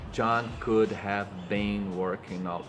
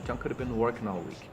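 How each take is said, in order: First: John could have been working all said slowly, every word stressed; mock the stiff textbook way; slow robotic stress; unnatural slow read. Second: John could have been working all week run together, could have been reduced; quick native rhythm; natural reduced. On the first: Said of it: "não vão falar de jeito nenhum". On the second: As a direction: say it fast like a native. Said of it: "ele vai falar". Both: Shown as a demonstration.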